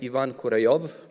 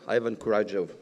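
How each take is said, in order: First: The name is said with a strongly Russian sound. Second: The name is said without a Russian sound. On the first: "it sounds very very Russian though" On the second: "You pronounced it very well"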